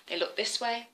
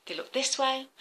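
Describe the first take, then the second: No difference in how they are said.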